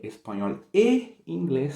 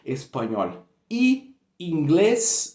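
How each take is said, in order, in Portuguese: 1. A conjunção é pronunciada como 'eh'. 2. A conjunção é pronunciada como 'ee'. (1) "você vai trocar o y por e" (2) "Imagina só"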